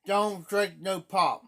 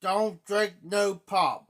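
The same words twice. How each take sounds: First: Repeats the warning, each word slow and deliberate; slow, firm warning. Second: Every word laid down slowly to warn the viewer; slow and emphatic, no pop; slow, firm warning. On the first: A man repeating his warning about pop, slow and firm. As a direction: drag it out, drink slowed and stressed. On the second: A man warning his viewers, drawn out and firm. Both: Real, not acted. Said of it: "Never drink pop".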